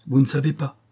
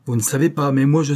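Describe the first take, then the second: First: A vehement reply, pressing on the word ne; violent retort. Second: Louder and higher, pushing on savez and sais; a heated rising retort; violent outburst. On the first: Croisenois retorts violently to Norbert's shrug. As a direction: snap it back with heat, a little higher. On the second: Croisenois insists angrily that he knows the danger. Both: A narrator's reading. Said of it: "reprit violemment".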